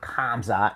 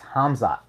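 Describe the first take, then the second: First: The name begins with a hard K sound. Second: The name begins with a breathy H sound. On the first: The speaker calls it wrong. "not Kamzat" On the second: The speaker calls it right. "It's Hamzat"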